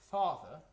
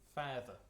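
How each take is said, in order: First: It is said in an English accent. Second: It is said in a New Zealand accent. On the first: "I'm English, ... that is kind of almost an A H, how I pronounce it" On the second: "Would be the more Kiwi way of pronouncing it"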